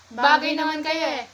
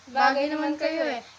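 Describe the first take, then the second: First: It is said in a happy tone. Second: It is said in a disappointed tone.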